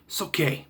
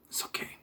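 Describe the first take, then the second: First: Said in the usual way. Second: It's okay dropped to a near mumble, much softer; much softer repeat. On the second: Real, not acted. Grudgingly conceding the Seagal movie is okay, muttered.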